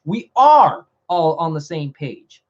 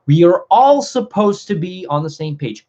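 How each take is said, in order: First: Slow down and punch "are"; "are" drawn out and hit hard, then a slight pause; stress on ARE. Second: Said in the usual way. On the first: Real, not acted. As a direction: insist on "are" as settled fact. Corrects "supposed to be" to "are.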